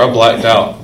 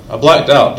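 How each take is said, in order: First: Said in the usual way. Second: "blacked" hit higher and louder; emphatic repeat. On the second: Real, not acted. Repeating his confession to the audience, "blacked" stressed. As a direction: lean hard into "blacked" on the repeat.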